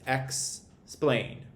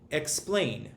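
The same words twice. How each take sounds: First: "explain" as two separate beats, ex, then plain; split into syllables. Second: Said in the usual way. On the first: Shown as a demonstration. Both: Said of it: "is broken up into two syllables".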